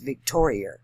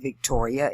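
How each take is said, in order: First: The word ends with an added r sound. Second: The word ends in a plain vowel. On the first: "They drop the A and add the E R" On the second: "it's not Victoria"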